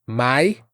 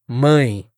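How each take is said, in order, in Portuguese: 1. A vogal é oral, sem ressonância nasal. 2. A vogal é nasal, ressoando pelo nariz. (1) "vira mai" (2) "Sinta essa diferença"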